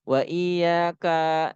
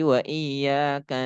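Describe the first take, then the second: First: The final 'ka' vowel is drawn out long. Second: The final 'ka' vowel is kept short. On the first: The speaker calls it wrong. "Nggak boleh wa iya kak nasta'inu" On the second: The speaker calls it right. "Maka kaknya nggak boleh dibaca panjang"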